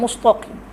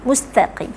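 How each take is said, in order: First: The t sound is heavy and thick. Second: The t sound is light and thin. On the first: The speaker calls it wrong. "bukan mustaqim" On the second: The speaker calls it right. "Mustaqim, bukan mustaqim"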